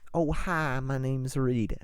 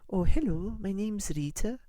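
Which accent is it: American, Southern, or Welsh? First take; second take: Southern; Welsh. First: It is said in a Southern belle accent. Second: It is said in a Welsh accent.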